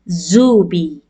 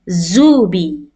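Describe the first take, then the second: First: It begins with a buzzing z sound. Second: The same.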